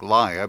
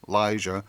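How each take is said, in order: First: The name is said to sound like liar. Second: The name is said to sound like Alicia. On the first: The name hints that she is a liar. "like Lya, because she's such a dirty liar" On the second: The name echoes the character Alicia. "it's a lot like Alicia"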